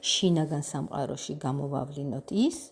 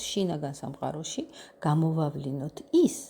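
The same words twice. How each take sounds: Both takes have the same delivery.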